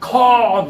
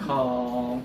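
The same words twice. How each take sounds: First: It is said loudly and abruptly. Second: It is said softly and low-energy.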